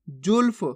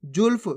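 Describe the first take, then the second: First: जुल्फ with half ल, "julf"; सही उच्चारण. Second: Second जुल्फ broken as "ju-laf"; गलत उच्चारण. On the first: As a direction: say जुल्फ as one beat, no vowel after ल. (जुल्फ में आधा ल, फ से जुड़ा) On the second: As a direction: misread जुल्फ with a full vowel after ल. (जुल्फ को "जुलफ" बोलकर) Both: Shown as a demonstration. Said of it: "जुल्फ नहीं".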